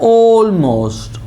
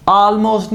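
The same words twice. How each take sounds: First: Almost said slowly with a long "o" start, "ol-most"; the right way: "almost" opening on a rounded o; correct almost. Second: Almost said with a flat "a" as in "al"; the wrong way: "almost" starting with an open a. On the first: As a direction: sahi almost, "o" se shuru. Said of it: "ये होता है almost". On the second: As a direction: galat almost, "aa" se shuru. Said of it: "almost नहीं होता". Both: Shown as a demonstration.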